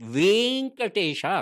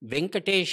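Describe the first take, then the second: First: The vowel is said long. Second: The vowel is said short. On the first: The speaker calls it right. "ದೀರ್ಘ ಬರಬೇಕು" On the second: The speaker calls it wrong. "ತಪ್ಪು ಉಚ್ಚಾರಣೆ"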